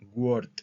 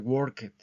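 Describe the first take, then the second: First: The ending is said as a short T sound. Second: The ending is said as a separate syllable. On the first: The speaker calls it right. "es como una T al final" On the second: The speaker calls it wrong. "Este no se pronuncia worked"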